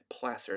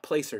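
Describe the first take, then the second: First: The word is pronounced differently from how it looks. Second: The word is pronounced the way it looks. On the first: The speaker calls it right. "It's pronounced a little differently than it looks" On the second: The speaker calls it wrong. "Not placer deposit"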